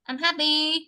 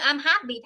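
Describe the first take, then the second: First: It is said flatly, without feeling. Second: It is said strongly, with feeling. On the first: The speaker calls it wrong. "thay vì là" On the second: The speaker calls it right. "cứ nói mạnh ra"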